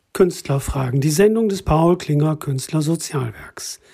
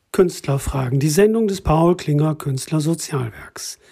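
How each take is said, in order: No difference in how they are said.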